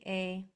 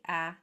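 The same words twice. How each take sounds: First: The vowel is a long 'ay' sound. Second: The vowel is a short 'a' as in cat. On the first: "a long A would say A" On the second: "a short A would say A"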